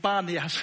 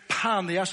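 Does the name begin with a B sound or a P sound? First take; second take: B; P. First: The name begins with a B sound. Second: The name begins with a P sound. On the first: This is how Arabic speakers say it, lacking a P sound. "men araber sier Banias, det er du ikke sier P" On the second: This is the original name, after the god Pan. "Så byen er Panias, det er Pan"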